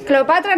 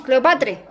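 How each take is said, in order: First: Said in the usual way. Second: Cleopatre said with a final e, not a; pronounced Cleopatre. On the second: Shown as a demonstration. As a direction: say Cleopatre ending in e, laughing. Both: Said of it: "Cleopatra no".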